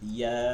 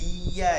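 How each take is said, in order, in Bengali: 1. ya অক্ষরটি হালকাভাবে ও নরমভাবে বলা হয়। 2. ya অক্ষরটি শক্ত করে ও জোর দিয়ে বলা হয়। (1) "এত পরিমাণে শক্ত হবে না" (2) "ইয়া এরকম বলা যাবে না"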